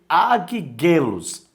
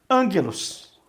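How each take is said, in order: First: The first syllable ends in a g sound. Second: The first syllable ends in an n sound. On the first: The speaker calls it wrong. "você não vai ler aguiguelos" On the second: The speaker calls it right. "ele vai ter som de N"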